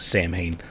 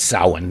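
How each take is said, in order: First: The word is pronounced as it is spelled. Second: The word is pronounced the traditional Gaelic way. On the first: The speaker calls it wrong. "not Samhain. ... I was looking at the script and just said it" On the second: The speaker calls it right. "It's Samhain"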